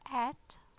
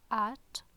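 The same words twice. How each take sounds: First: The t is released with a strong puff of air. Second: The t is released with a strong puff of air.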